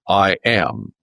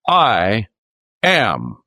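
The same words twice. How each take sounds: First: It is said plainly, without extra force. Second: It is said with strong, forceful emphasis. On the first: It is a simple statement of being. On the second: It is an emphatic claim of divine identity.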